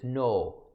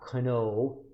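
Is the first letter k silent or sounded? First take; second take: silent; sounded. First: The word starts with an n sound. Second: The word starts with a k sound. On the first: The speaker calls it right. "I pronounce it as no" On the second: The speaker calls it wrong. "not kno"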